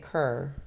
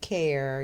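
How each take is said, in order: First: The vowel sounds like 'er'. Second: The vowel sounds like 'air'. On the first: "you say cur" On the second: "instead of saying care"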